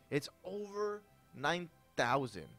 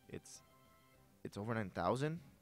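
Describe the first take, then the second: First: It is said with excited, intense emphasis. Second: It is said in a plain, ordinary tone.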